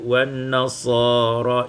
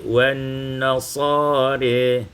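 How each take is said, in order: First: The last vowel is an open 'a' sound. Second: The last vowel leans toward an 'e' sound.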